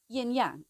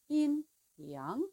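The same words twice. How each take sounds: First: It is said with a heavier, harder English sound. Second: It is said with a lighter, softer sound. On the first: The speaker calls it wrong. "In English, we tend to say" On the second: The speaker calls it right. "the pronunciation is lighter and softer"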